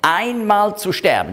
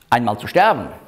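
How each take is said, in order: First: The word einmal carries strong emphasis. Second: The word einmal is unstressed. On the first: It happens only once, not twice. The speaker calls it right. "sondern einmal zu sterben, nicht zweimal" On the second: It happens at some point. The speaker calls it wrong. "Es heißt nicht"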